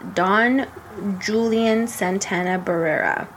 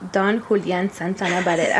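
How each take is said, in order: First: The name is said with an English accent. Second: The name is said with a Spanish accent.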